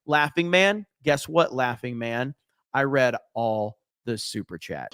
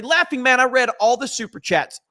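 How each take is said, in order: First: Measured, dropping lower as it goes; deliberate repeat. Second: High-pitched, exasperated comeback; exasperated protest. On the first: Streamer repeating the point to a teasing viewer, deliberate. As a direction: spell it out, word by word, sinking in pitch. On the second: Streamer protesting to a teasing viewer, exasperated. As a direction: protest in a much higher voice. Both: Real, not acted.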